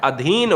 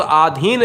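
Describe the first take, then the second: First: "अधीन" opening on a short a; शुद्ध रूप अधीन. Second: "आधीन" opening on a long aa; गलत रूप आधीन. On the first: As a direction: say "अधीन" slowly, first vowel short. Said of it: "शुद्ध शब्द क्या होता है". ("अधीन" की शुरुआत छोटे अ से) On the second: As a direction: say "आधीन" with a stretched first vowel. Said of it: "ये सरासर गलत है". ("आधीन" की शुरुआत लंबे आ से) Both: Shown as a demonstration.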